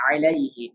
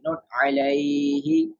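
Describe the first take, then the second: First: "alayhi" with a short unstretched "ay"; short leen vowel. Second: "alayhi" with a long drawn-out high "ay"; stretched wrong way. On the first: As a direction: keep "ay" in "alayhi" short and gentle. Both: Shown as a demonstration. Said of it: "without stretching".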